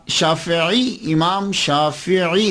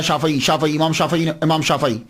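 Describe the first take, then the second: First: "شافعی" very slowly as shaa-fi-'ee; laboured correct pronunciation. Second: "شافعی" said quickly with an open a after the f; common mispronunciation. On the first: Lecturer showing how difficult it feels, "شافعی" slow with zer on fa and ain. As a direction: stretch "شافعی", i after the f and a distinct ain. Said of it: "دیکھا نا بہت مشکل لگ رہا ہے". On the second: Lecturer showing what people usually say, "شافعی" with zabar on the fa. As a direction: say "شافعی" the easy way, as shaa-fa-ee. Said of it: "فا کے اوپر زبر پڑتے ہیں". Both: Shown as a demonstration.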